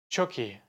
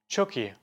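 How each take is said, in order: First: The two words run together as one sound. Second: The same.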